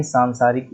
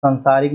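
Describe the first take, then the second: First: सांसारिक with long first vowel, saan-saarik. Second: सांसारिक with short first vowel, san-saarik; wrong short vowel. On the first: Teacher giving the correct form, सांसारिक with long saan-. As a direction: lengthen the opening aa of सांसारिक. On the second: Teacher showing the error, सांसारिक with short san-. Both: Shown as a demonstration. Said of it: "सांसारिक नहीं".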